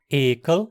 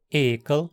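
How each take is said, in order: The two takes are said the same way.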